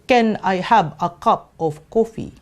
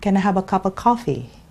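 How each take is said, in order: First: The words are said separately, not linked together. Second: The words are linked smoothly into each other. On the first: A non-native speaker would say it this way. "for most uh, non-English speakers, they would say" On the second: A native speaker would say it this way. "But English speakers would say"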